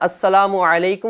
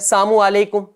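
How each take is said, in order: First: The full opening syllable is clearly pronounced. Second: The opening syllable is dropped and slurred. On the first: The speaker calls it right. "तरीका मैंने आपको बताया" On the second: The speaker calls it wrong. "एक और गलती करते हैं, दुरुस्त तलफ़ुज़ अदा नहीं कर रहे होते हैं"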